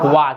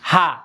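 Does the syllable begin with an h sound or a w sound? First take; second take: w sound; h sound. First: The syllable begins with a w sound. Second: The syllable begins with an h sound. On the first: The character marks the subject as a particle. "Particle হিসেবে আসবে তখন এর উচ্চারণ হবে কি ওয়া" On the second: The character is read as an ordinary letter. "যখন হিরাগানা হিসেবে আসবে তখন হচ্ছে কি হা"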